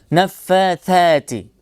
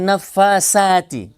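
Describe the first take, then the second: First: The consonant is a soft th without whistling. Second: The consonant is a hissing, whistling s sound. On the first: The speaker calls it right. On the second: The speaker calls it wrong. "Bukan nafasati"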